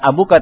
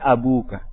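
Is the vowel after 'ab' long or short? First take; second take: short; long. First: The vowel after 'ab' is short. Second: The vowel after 'ab' is long. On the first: The speaker calls it wrong. "Bukan abuka" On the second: The speaker calls it right. "tapi abuka"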